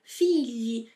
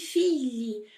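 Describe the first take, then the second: First: The gl is a palatal sound like lh. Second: The gl is a palatal sound like lh.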